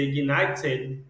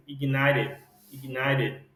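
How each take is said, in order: First: "ignited" with a hard, clear t; t fully pronounced. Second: "ignited" with the t softened to a tapped r. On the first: Teacher showing students the form to avoid, hard t in "ignited". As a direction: say "ignited" as ig-NAI-ted, crisp t. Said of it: "no lugar do esse T virasse um R". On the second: Teacher modelling for students, t tapped like R in "ignited". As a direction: say "ignited" as ig-NAI-red, quick tap. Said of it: "é parecido como se no lugar do esse T virasse um R". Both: Shown as a demonstration.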